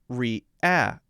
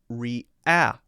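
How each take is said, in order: No difference in how they are said.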